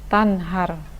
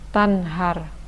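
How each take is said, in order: No difference in how they are said.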